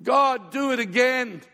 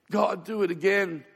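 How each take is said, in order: First: Loud, higher and slow plea; retold pleading cry. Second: Said in the usual way. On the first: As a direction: beg God again, slowly. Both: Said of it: "I'm bawling my eyes out and I'm going".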